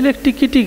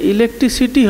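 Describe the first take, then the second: First: The word has a 'k' sound near the end. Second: The word has an 's' sound near the end. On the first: The speaker calls it wrong. "তার জায়গায় আপনার ছেলে ইলেকট্রিকিটি করছে" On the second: The speaker calls it right. "যে ইলেকট্রিসিটি হবে"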